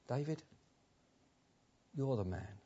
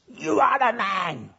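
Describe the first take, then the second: First: It is said quietly and gently. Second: It is said as a loud accusation.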